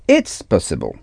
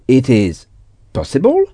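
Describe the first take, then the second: First: It is contracted into one syllable. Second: It is said as two separate words. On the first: "vous pouvez faire une contraction en disant it's" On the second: "Au lieu de dire it is"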